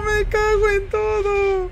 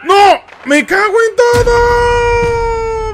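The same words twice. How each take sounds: First: Muttered curse. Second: Furious shout. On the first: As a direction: grumble it the second time. Repeats the curse, fading. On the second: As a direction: scream it out, furious. Player fails the sneak. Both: Real, not acted.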